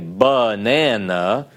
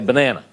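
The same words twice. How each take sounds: First: The first vowel is said fully and slowly. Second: The first vowel is quick and hurried. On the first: The speaker calls it wrong. "You don't say banana" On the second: The speaker calls it right. "You're supposed to say banana"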